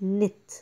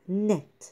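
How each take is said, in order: First: The vowel is a tight, closed i-like sound. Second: The vowel is a light, open e sound. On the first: The speaker calls it wrong. "مش نت" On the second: The speaker calls it right. "لا نت"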